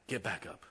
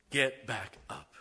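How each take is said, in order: First: Said in the usual way. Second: Slow, drawn-out and louder; rising preacher's call. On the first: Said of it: "What was I telling her?". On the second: Real, not acted. Preacher to his congregation, slow building call. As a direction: stretch each word as the shout builds. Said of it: "I'm about to shout".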